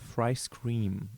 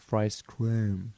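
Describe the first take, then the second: First: The vowel in scream sounds plain and unchanged. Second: The vowel in scream sounds changed and modified. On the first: This is how it was meant to sound. "Instead of fry scream" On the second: This is how it actually came out in the recording. "it was more like fry scream ... because of that vowel modification"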